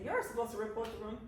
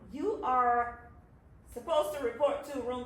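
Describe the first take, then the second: First: The words 'you are' are contracted to 'you're'. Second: The words 'you are' are said in full. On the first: The speaker calls it right. "You say" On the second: The speaker calls it wrong. "We don't say"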